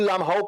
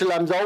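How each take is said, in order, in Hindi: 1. बीच का व्यंजन H ध्वनि है। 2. बीच का व्यंजन J ध्वनि है। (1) "लामहाओ कुछ को प्रोनाउंस करते हैं वहां के लोग" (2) "कुछ लामजाओ बोल रहे हैं हम लोग"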